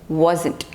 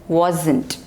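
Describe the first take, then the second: No difference in how they are said.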